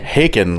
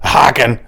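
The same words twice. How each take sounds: First: The name rhymes with bacon. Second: The name does not rhyme with bacon. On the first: The speaker calls it right. "like bacon" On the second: The speaker calls it wrong. "It is not Haken"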